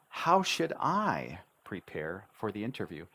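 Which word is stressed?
how. The stress falls on the word how.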